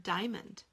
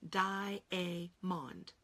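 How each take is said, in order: First: Said in the usual way. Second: Diamond said very slowly in three syllables, dia-a-mond; think to spell diamond. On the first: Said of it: "How about the word diamond?". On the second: Shown as a demonstration. Teacher drawing out diamond to expose the silent A. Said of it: "We will think to spell diamond".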